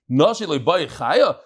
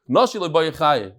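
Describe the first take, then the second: First: It ends rising, like a question. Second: It ends falling, like a flat statement. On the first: Do women not want to live? The speaker calls it right. "It's a question mark" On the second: Women do not want to live. The speaker calls it wrong. "No, that's not how you read it"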